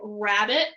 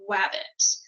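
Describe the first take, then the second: First: The word begins with an R sound. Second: The word begins with a W sound. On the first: This is the adult target pronunciation. "instead of saying rabbit" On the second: A child glides the liquid sound. "they're replacing that R with a W"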